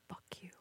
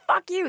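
First: The phrase is spoken in a whisper. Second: The phrase is shouted loudly. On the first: The speaker has inner confidence and building rage. The speaker calls it right. "If I whisper" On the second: The speaker seems crazy and erratic. The speaker calls it wrong. "If I'm like"

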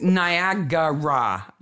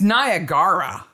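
First: The word is said with four syllables. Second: The word is said with three syllables. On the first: The speaker calls it right. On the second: The speaker calls it wrong. "I didn't know that there was an extra syllable in Niagara"

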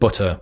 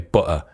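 First: The middle t sound is clearly pronounced. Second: The middle t sound is dropped. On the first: "instead of butter" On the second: "we drop our T's a lot"

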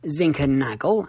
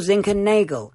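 First: The 'a' sounds like the vowel in 'annus'. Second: The 'a' sounds like the vowel in 'anus'. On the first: "as in Annus Horribilis" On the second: "as in Anus Horribilis"

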